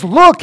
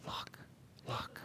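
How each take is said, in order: First: High, loud call of look; loud exclamation. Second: Barely audible look, look; soft talker. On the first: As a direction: shout look out like a prophet. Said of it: "when John says". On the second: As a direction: murmur it, almost nothing. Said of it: "he's not going". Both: Shown as a demonstration.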